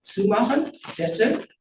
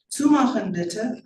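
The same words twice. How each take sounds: First: BITTE lifted as a slow question; questioning echo. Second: Slow, higher-pitched German plea; German request. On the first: Janitor echoes the girl's German order, questioning BITTE. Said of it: "but with a bitte?". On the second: Girl desperate that he shut the door, pleading in German. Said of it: "I add in German". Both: A narrator's reading.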